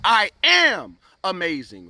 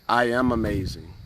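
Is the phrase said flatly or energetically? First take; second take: energetically; flatly. First: It is said loudly with strong energy. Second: It is said in a flat, low-energy way. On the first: The words are said with conviction. The speaker calls it right. "when you say it like that" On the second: The words are only recited. The speaker calls it wrong. "you don't just want to say it"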